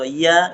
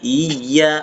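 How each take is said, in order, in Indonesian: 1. Bunyi y pendek, tanpa tekanan. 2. Bunyi y digandakan dan ditekan. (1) "Jangan dibaca iya" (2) "Harusnya iya ada tekanan di situ"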